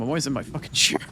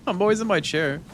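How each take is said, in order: First: Said in the usual way. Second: "always" lifted and pressed higher; stress on always. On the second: Real, not acted. Streamer insisting the cat knows she's always in her chair, stressing "always". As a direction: lean on the word "always".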